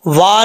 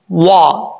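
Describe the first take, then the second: First: Said in the usual way. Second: वा said with the lips rounded; rounded vav. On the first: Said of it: "वा नहीं होता". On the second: Shown as a demonstration. Teacher demonstrating rounded-lip वा to students. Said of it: "होंठ गोल करेंगे".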